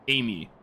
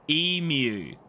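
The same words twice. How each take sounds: First: The word is said at normal speed. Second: The word is said very slowly.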